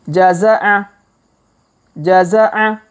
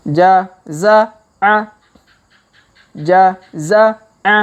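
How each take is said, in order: First: Jaza'a said quickly in one go; faster reading. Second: Jaza'a drawn out slowly, every syllable lengthened; slow reading. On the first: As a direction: read jaza'a briskly and smoothly. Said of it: "Kalau dipercepat". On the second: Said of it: "Kita baca pelan-pelan". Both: Shown as a demonstration.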